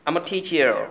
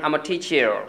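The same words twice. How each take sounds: The two takes are said the same way.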